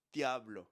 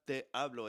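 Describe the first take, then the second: First: "te hablo" blended into one word, te and hablo fused; words run together. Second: "te hablo" said as two distinct words, te fully voiced; separated words. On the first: Teacher shows the singer's blended "te hablo". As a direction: slur "te hablo" together, almost "tablo". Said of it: "he kind of smashes these together". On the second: Teacher shows how the singer does not say it, "te hablo" kept apart. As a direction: say "te" then "hablo" without joining them. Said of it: "It's not". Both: Shown as a demonstration.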